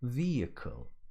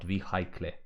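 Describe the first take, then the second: First: The h in the middle is silent. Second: The h in the middle is pronounced. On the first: The speaker calls it right. "So, vehicle" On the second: The speaker calls it wrong. "Not vehicle, that's for sure"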